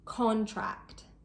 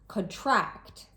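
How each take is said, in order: First: The stress is on the first syllable. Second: The stress is on the second syllable. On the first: It is used as a noun. "with two-syllable nouns, the stress is placed on the first syllable" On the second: It is used as a verb or adjective. "with two-syllable verbs or adjectives, the stress is usually placed on the second syllable"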